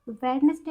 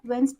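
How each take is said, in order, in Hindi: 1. Wednesday में d की आवाज़ बोली जाती है। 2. Wednesday में d की आवाज़ silent है। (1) "वेडनेसडे अगर आप बोलते हो तो गलत है" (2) "वेंसडे होता है ये हमारा"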